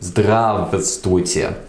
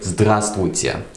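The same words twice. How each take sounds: First: The middle v sound is pronounced. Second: The middle v sound is dropped. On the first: The speaker calls it wrong. "we don't say здравствуйте" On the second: The speaker calls it right. "We just say здравствуйте. So we sort of omit the v sound"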